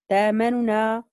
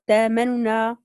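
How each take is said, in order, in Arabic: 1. تُبدل الهمزة بحرف مد طويل. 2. تُبدل الهمزة بحرف مد طويل.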